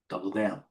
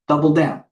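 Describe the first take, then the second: First: Said in the usual way. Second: Louder, punchier "Double down" as a firm call; emphatic call. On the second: Real, not acted. Trader loudly committing to his position. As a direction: bark "Double down" like an order.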